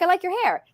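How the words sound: It sounds warm and sincerely complimentary. It is a genuine compliment. "One sounds like a compliment"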